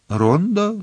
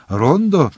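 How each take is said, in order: First: High, scornful question; disdainful Рондо?. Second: Mechanical echo. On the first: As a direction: sneer at the word Рондо. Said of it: "зневажливо мовив єзуїт". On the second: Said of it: "машинально повторив Кюре". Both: Acted.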